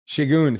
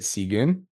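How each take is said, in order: First: The name begins with an sh sound. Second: The name begins with a plain s sound. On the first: The speaker calls it right. "it's a uh, Shigun" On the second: The speaker calls it wrong. "I don't want to pronounce this wrong"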